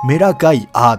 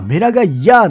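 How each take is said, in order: First: The name ends with a plain 'a' sound. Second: The name ends with a 'ya' sound. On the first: The speaker calls it right. "正しくは、" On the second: The speaker calls it wrong. "アなのかヤなのかわからん"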